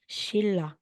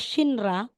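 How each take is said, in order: First: The middle consonant is a doubled l sound. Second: The middle consonant is an n followed by r. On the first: The speaker calls it right. "magiging Shilla" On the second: The speaker calls it wrong. "Hindi siya Shinra"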